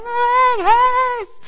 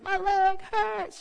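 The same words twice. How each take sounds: First: High, loud, slow wailing yell; child's shout. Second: Put-on slow, high sleepy child whine; half-asleep child whimper. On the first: Retold or imitated. Delirious daughter shaking her leg in bed, loud high wail. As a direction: bellow it like a delirious kid mid-meltdown. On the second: Daughter half asleep complaining to mom, slow high whine. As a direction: drawl it like a drowsy kid in pain. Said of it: "She's like".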